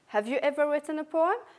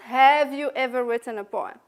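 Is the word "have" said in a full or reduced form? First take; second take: reduced; full. First: The word have is said weak and reduced. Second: The word have is said in full, unreduced. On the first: The speaker calls it right. "So the pronunciation here is weak" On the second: The speaker calls it wrong. "It's not"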